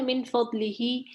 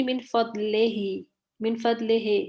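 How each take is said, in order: First: من فضلہ with a clear ee in فضلہ; من فضلہ, pure i vowel, not e; correct kasra. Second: من فضلہ with e in place of i; من فضلہ, kasra bent toward e; majhool e sound. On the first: Shown as a demonstration. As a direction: say فضلہ as fad-li-hi, short i sounds. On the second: Retold or imitated. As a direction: imitate the student: فضلہ as fad-le-he. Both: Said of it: "آپ کی sound آ رہی تھی".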